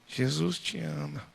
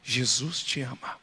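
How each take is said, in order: First: It is said quietly. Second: It is shouted at full volume.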